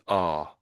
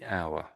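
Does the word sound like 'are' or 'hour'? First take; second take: are; hour. First: It is said like 'are', one vowel. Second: It is said like 'hour', two vowels. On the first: It is said in quick everyday speech. "in everyday speech, we're talking moderately quickly. It would just be are" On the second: It is read out slowly. "if you're reading out slowly, you would have to say our"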